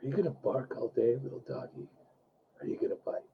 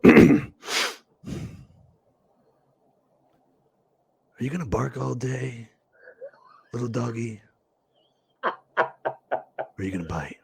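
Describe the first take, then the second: First: Low, near-whispered menacing taunt; Mister Blonde impression. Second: Low, soft, menacing gangster taunt, slowing down; Mister Blonde impression. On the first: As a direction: breathe the threat almost without voice. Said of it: "Let's have you say it". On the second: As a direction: coax it quietly like a sadistic gangster. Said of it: "we look inside the camera and we go". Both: Shown as a demonstration.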